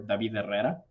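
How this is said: The name is said with a Spanish pronunciation.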